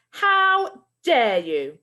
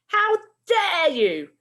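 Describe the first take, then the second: First: Loud, very slow outraged teacher; furious shout again. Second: High, loud and slow outraged teacher; furious shout. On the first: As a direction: drag each word out in fury. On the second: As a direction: bellow it at the two boys. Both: Acted. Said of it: "shouted Missus Collins".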